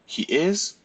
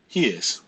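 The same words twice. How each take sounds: First: He is asked high with a rising tune; question tune. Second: He is said at normal pitch, falling like an answer; answer tune. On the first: Teacher contrasts question and answer for students, rising question. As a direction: lift it like a question. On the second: Teacher contrasts question and answer for students, falling answer. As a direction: let it fall as a statement. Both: Shown as a demonstration. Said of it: "the answer and question will look the same".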